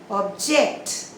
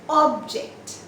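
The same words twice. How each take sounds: First: The stress is on the second syllable. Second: The stress is on the first syllable. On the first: It is used as a verb. "if it is used as a verb, you say object" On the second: It is used as a noun. "when it is a noun"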